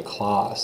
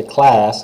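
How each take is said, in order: First: Class with an open round ah; right take; open French a. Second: Class with a flat English a; wrong take. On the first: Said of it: "they say class". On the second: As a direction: say class the American way. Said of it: "They don't say class". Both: Shown as a demonstration.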